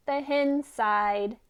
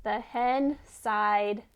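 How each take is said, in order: Both takes have the same delivery.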